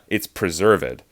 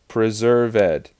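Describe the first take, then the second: First: The -ed ending is silent, giving two syllables. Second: The -ed ending is said as a separate syllable. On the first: "that's two syllables being written like that" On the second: "it says preserved with an accent like that"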